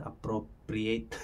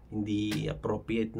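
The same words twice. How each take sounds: First: Appropriate said slowly, every syllable drawn out; careful English appropriate. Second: Said in the usual way. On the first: Shown as a demonstration. Vlogger to viewers, correcting his own word, slow careful pronunciation. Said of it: "Ang tawag dun, appropriate". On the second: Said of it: "Ang tawag dun".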